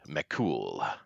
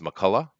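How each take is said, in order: First: The name is said with an Irish pronunciation. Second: The name is said with an American pronunciation. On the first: "the Irish or, or, or s- Celtic pronunciation is so much cooler" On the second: "you have the American pronunciation in your name"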